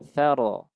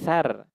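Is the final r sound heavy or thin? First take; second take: heavy; thin. First: The final r sound is heavy and full. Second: The final r sound is thin and light. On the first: The speaker calls it right. "harus dibaca dengan tafkhim" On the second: The speaker calls it wrong. "kesalahan umumnya bacanya tarkik"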